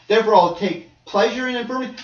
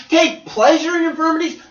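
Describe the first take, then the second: First: Said in the usual way. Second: Incredulous echo. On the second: Acted. Echoes verse in disbelief.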